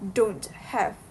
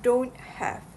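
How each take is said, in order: First: The t at the end of don't is pronounced. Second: The t at the end of don't is dropped. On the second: "In this case, have"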